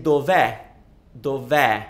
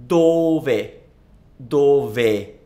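First: "dov'è" with the weight on a final open è, as in egg; short do, then open, stressed è in "dov'è". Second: "dove" slowly, with a long stressed DO and short ve. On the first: Teacher demonstrating the second one, open stressed final è in "dov'è". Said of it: "It's always an open è". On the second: Teacher demonstrating the word for where, drawn-out stress on DO in "dove". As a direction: stretch and punch the first syllable of "dove". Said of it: "the stress is in the do". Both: Shown as a demonstration.

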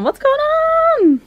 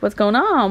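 First: Very high, drawn-out squeaky question; excited onlooker. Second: Said in the usual way. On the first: Retold or imitated. Voicing Chase wondering about the box, high squeal. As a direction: squeal it slowly as the curious one. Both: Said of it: "He's all, he's like".

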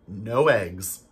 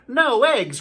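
First: Said in the usual way. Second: Much higher and louder despairing cry; dismayed cry. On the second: Acted. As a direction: cry out as if the farm is ruined. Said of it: "cried Farmer Brown".

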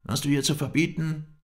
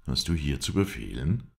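First: High, loud counter-challenge; angry retort. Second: Firm challenge near usual pitch; challenging question. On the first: Sheikh challenges the guest in return, angry. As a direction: throw the question back at him, voice raised. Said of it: "antwortete er mir". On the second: Guest challenges the sheikh's right to command, firm. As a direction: question his authority without shouting. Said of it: "frug ich ihn". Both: A narrator's reading.

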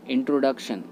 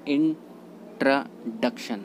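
First: इंट्रोडक्शन with full 'tro'; इंट्रोडक्शन with rounded o in the middle; common mispronunciation. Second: इंट्रोडक्शन with middle 'truh'; इंट्रोडक्शन, middle o reduced to a; correct pronunciation. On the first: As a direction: say इंट्रोडक्शन as 'in-TROH-duk-shun'. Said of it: "इंट्रोडक्शन गलत होता है". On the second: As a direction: say इंट्रोडक्शन as 'in-truh-DUK-shun', in separate syllables. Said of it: "right pronunciation होता है". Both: Shown as a demonstration.

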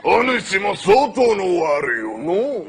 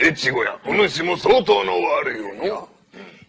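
First: ゆっくり悪代官の台詞; 悪代官らしくゆっくりと; 悪代官. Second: ゆっくり悪代官の台詞; 「相当」を上げてゆっくり言う; 悪代官. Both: Acted. (越後屋に語りかける悪代官、ゆっくり)

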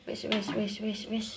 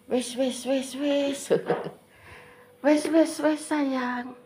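First: Quiet hushing "wis, wis". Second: Higher, sing-song hushing "wis, wis". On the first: Soothing child, quietly. (menenangkan anak dengan pelan) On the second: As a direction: coo to calm a crying little one. Comforting crying child, high baby talk. (ibu menenangkan anak yang menangis, suara tinggi lembut) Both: Real, not acted.

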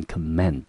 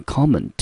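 First: Comment stressed on the second syllable, com-MENT; verb stress. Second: Comment stressed on the first syllable, COM-ment; noun stress. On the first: Teacher showing students the verb comment, stress on MENT. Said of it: "重音节要落在第二个音节". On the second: Teacher showing students the noun comment, stress on COM. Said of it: "当作名词念成comment". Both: Shown as a demonstration.

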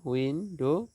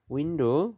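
First: "window" as two beats, উইন, ডো; a small break inside "window"; split into syllables. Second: Said in the usual way. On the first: Shown as a demonstration. Teacher dividing syllables for students, "window" split in two. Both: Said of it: "syllable বিভাজন".

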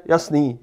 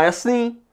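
First: Said in the usual way. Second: Jasný? asked with a high rising question tune; asking question. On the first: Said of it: "odpovíde". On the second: Shown as a demonstration. Teacher shows students a question: Jasný? rising high. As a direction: ask „Jasný?“ as a real question, pitch up. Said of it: "že se vás někdo zeptá".

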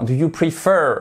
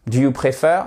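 First: Prefer en « pri-FEUR »; prononciation corrigée. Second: Prefer à la française, comme « préfère »; mauvaise prononciation. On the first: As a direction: accentue la seconde syllabe de prefer. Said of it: "Non, do you prefer". (prefer à l'anglaise, fin appuyée et descendante) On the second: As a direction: dis prefer avec un é français en première syllabe. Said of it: "on dit pas do you prefer". (prefer prononcé « pré-fèr », à la française) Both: Shown as a demonstration.

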